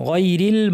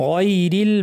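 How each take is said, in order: No difference in how they are said.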